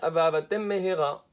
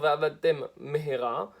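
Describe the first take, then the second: First: The two words run together without pause. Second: A short pause separates the two words. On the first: It sounds like one meaningless word. The speaker calls it wrong. "le type il prononce mal, il va dire" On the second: Two separate words are heard. The speaker calls it right. "au lieu de dire va'avatem mehera"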